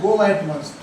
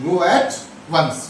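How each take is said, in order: First: Said in the usual way. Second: Stretched, careful go at once; slow drilled phrase. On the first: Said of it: "उसके लिए कहते हैं go at once". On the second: Shown as a demonstration. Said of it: "Golu".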